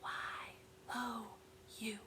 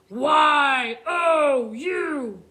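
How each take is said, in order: First: It is said in a quiet whisper. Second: It is said in a scary monster voice. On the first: "let's whisper it" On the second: "read words like scary monsters"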